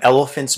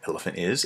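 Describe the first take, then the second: First: 'Is' is squeezed into the noun as one word. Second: 'Is' is said as a separate full word.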